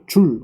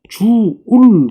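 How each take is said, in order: First: The word is said as one short syllable. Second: The word is stretched into two syllables. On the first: This is the way it is said nowadays. "요즘은 뭐라고요? ... 간단하게 이야기를 합니다" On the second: This is the old-fashioned way of saying it. "옛날에는 뭐예요? ... 뭐 이렇게 얘기하기도 했는데요"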